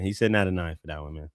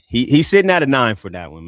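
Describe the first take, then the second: First: Fast, lower throwaway repeat; quick aside. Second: Louder, firm announcement of the score; emphatic verdict. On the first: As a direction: toss it off quickly under the breath. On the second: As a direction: declare it proudly to the room. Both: Real, not acted.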